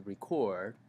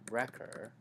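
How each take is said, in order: First: "record" stressed on the second syllable, re-CORD; weak start to "record", lean on CORD. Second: "record" stressed on the first syllable, REC-ord. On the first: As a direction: say "record" as the verb, CORD strong. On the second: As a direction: say "record" as the noun, REC strong. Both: Shown as a demonstration. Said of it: "stressed syllable".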